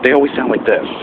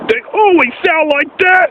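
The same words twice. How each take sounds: First: It is said in a normal speaking voice. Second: It is said in an anime-style character voice.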